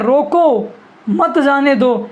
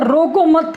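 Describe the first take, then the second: First: रोको drawn out, a break, then "मत जाने दो"; pause after रोको. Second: रोको and मत said together as one phrase; pause after मत. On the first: Teacher shows students the comma's meaning, pausing after रोको. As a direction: hold रोको long, then run मत into जाने दो. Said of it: "अगर रोको के बाद comma". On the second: Teacher shows students the other comma, grouping रोको with मत. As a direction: join मत straight onto रोको, no break between. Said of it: "के बाद कॉमा लगाए". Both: Shown as a demonstration.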